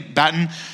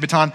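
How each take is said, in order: First: The word is said the British way. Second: The word is said the local, non-British way. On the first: "Brits say baton" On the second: "you say baton"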